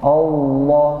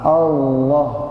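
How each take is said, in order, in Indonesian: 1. Vokal pertama terdengar tebal dan gelap. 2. Vokal pertama terdengar tipis dan ringan. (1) "kalau terbawa gini" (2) "yang benar A"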